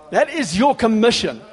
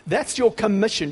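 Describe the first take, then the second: First: Louder punched repeat. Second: Said in the usual way. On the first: Shown as a demonstration. Repeat after pause, louder.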